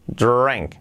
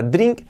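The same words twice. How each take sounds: First: DRINK with an open vowel, like "drank"; correct pronunciation. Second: DRINK with a short i, rising; mispronounced drink. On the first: Teacher models the verb for learners, correct pronunciation. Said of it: "Cuidado la pronunciación sobre todo". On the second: Teacher warns learners off this pronunciation, mispronounced drink. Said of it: "Cuidado la pronunciación sobre todo, que no sea". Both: Shown as a demonstration.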